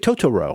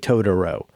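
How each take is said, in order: First: The word is said with crisp, careful articulation. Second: The word is said loosely and casually. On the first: The speaker calls it right. "like somebody who's at elocution lessons" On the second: The speaker calls it wrong. "I pronounce it too casually"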